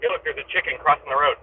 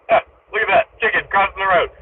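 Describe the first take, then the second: First: Said in the usual way. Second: High, loud, delighted callout; excited. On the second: Real, not acted. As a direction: exclaim it with glee. Excited repeat of chicken sighting.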